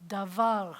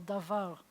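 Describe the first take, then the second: First: "davar" with the weight on "var"; stress on last syllable. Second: "davar" ending firmly on "var"; da-VAR, stress last; stress on last syllable. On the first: Teacher models Hebrew stress, da-VAR, for the class. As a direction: land on the end: da-VAR. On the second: Teacher repeats "davar", stressing its last syllable. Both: Shown as a demonstration. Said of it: "accent on the last syllable".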